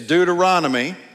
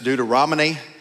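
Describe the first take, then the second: First: The N sound comes before the M sound. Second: The M sound comes before the N sound. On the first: The speaker calls it right. "It's Deuteronomy" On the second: The speaker calls it wrong. "Some people put the M before the N"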